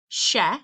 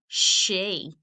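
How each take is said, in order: First: The vowel is a short 'eh' sound. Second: The vowel is a long 'ee' sound. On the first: The speaker calls it wrong. "instead of saying sh, eh, she" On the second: The speaker calls it right. "we say sh, e, she"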